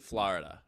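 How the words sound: Florida is said with a New York pronunciation. "I say Florida"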